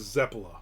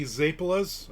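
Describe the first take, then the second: First: Zeppola quick, no final s; how everybody says it. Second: Zeppolas said slowly with a final s; my way of saying it. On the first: Quoting what everyone else calls the dessert, quickly. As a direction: rattle off Zeppola the common way. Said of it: "Everybody says Zeppola". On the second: Telling viewers how he says the dessert's name, spelling out the s. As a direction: stress the plural ending: Zeppolas. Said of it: "I say Zeppolas". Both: Shown as a demonstration.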